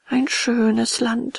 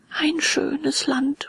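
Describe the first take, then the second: First: Slow, drawn-out, longing sigh in higher voice; wistful sigh. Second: Very slow, high, drawn-out musing; dreamy murmur. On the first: Puppet tempted by lazy land, slow wistful sighing. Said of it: "seufzte Bengele". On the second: Puppet half won over by lazy land, slow dreamy murmur. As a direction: muse on it slowly, half captivated. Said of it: "murmelte Bengele". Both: A narrator's reading.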